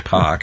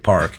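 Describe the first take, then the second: First: It has a Boston accent with the R dropped. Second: It has the R clearly pronounced.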